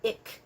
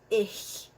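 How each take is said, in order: First: The word ends in a hard k sound. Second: The word ends in a soft hissing sound. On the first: The speaker calls it wrong. "It's not ik. Um, ik is actually Dutch" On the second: The speaker calls it right. "C H sounds are going to be pronounced as ich"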